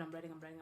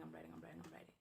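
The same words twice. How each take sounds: First: Said in the usual way. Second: Repeated words sink from soft into a whisper; fading to a whisper. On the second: Acted. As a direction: let the voice drain away to a breathless whisper as you keep writing. Repeats writing, then fades to whisper.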